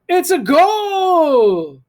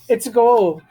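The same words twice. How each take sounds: First: It is said excitedly, with lots of feeling. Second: It is said flatly, without much feeling. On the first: The speaker calls it right. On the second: The speaker calls it wrong.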